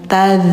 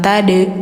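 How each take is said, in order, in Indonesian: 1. Konsonan akhirnya mengalir terus sebagai gesekan. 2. Konsonan akhirnya dilepas dengan dipantul. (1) "rokhwah, mengalir suaranya" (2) "jangan tade, jangan dipantul"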